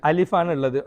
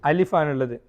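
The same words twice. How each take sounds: Both takes have the same delivery.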